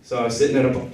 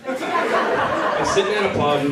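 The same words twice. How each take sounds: First: Said in the usual way. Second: Laughing restart. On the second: Real, not acted. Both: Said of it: "God damn it".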